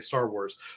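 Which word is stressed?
Star. The stress falls on the word Star. It is the usual way of saying the title. The speaker calls it right. "I say Star Wars"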